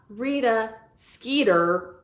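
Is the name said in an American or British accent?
American. The name is said in an American accent. The speaker calls it wrong.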